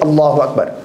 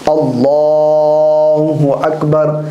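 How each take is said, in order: First: The phrase is said quickly and hurriedly. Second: The phrase is said slowly and drawn out. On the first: The speaker calls it wrong. "ये इतने जल्दबाज होते हैं" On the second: The speaker calls it right. "वो खूबसूरती के साथ तकबीर तहरीमा कहता है इमाम"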